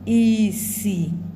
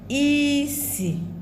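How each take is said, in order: First: Both syllables are on a low tone. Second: A high tone is followed by a low tone. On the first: It means blindness. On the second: It means smell.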